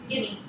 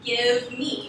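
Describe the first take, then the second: First: The v sound is dropped entirely. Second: The v sound is clearly pronounced. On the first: "the V getting dropped. It just becomes gimme" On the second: "which is give me"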